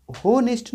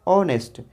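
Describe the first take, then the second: First: होनेस्ट with a voiced h at the start; wrong H sound. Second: ऑनेस्ट starting on the vowel, no h; silent h. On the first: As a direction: say होनेस्ट pronouncing the H. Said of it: "होनेस्ट नहीं बोलते हैं". (होनेस्ट, एच बोलकर) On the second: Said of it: "एच silent हो जाता है". (ऑनेस्ट, एच silent) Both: Shown as a demonstration.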